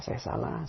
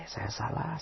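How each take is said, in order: First: Wife whispering her mistake to herself; whispered admission. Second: Hushed, barely voiced "salah"; wife softly owning her mistake; soft admission. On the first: Retold or imitated. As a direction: whisper "saya salah" with no voice, "salah" rising. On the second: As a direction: say "saya salah" gently with a rising "salah". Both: Wife voiced admitting fault.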